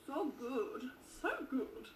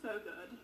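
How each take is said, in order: First: Excited. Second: Said in the usual way. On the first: Pretend. Vlogger tasting her favorite lemon drink, hammed-up gushing. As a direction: gush over the drink as if it's the best thing ever.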